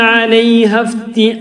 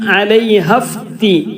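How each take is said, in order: The two takes are said the same way.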